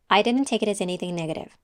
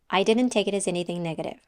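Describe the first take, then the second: No difference in how they are said.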